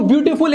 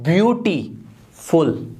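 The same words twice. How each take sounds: First: Said in the usual way. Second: ब्यूटीफुल slowly split as "beauty... ful"; broken in two. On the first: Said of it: "एक बार में बोल के दिखाओ". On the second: Shown as a demonstration. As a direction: break ब्यूटीफुल with a clear gap before "ful". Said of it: "ब्यूटीफुल को तोड़ सकते हो". (ब्यूटीफुल को तोड़कर, "ब्यूटी... फुल")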